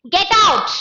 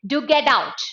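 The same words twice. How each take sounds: First: Sharp rise in pitch and volume; loud, high command. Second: Restrained urging with a falling end; softened command. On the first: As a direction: order someone out forcefully. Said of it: "it's louder and high in pitch". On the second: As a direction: order held back, no shouting. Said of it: "It softened the tone". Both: Shown as a demonstration.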